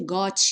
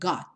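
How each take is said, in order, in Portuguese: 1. O T final é liberado com força. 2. O T final fica fechado, quase não é liberado. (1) "mas nada de got" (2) "então bem fechadinha"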